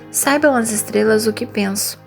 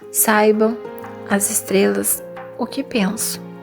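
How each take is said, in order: First: It flows without breaks, pausing silently only at the end. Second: It is broken up by filled hesitation pauses. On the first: The speaker calls it right. "Faça uma pausa apenas no final" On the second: The speaker calls it wrong. "Pausas preenchidas"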